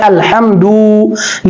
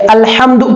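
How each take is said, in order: First: The word is said with an extra sound added. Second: The word is said with no extra sound. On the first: The speaker calls it wrong. "किसी हर्फ को बढ़ा देना, हम पढ़ रहे हैं" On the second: The speaker calls it right. "जैसे अल्हम्दु पढ़ना है"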